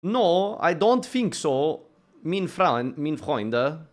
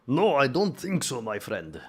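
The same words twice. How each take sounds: First: Put-on higher, slow second try at a German accent. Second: Slow, lightly put-on German accent; a failed try at a German refusal. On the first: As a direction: ham up a German saying no. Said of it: "Can't do German accents". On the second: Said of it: "That's not a German accent".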